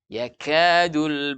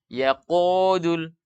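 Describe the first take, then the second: First: The ka syllable sounds thin and open. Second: The ka syllable sounds thick and dark. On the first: The speaker calls it right. "Buka mulutnya" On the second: The speaker calls it wrong. "jangan baca yaqudul"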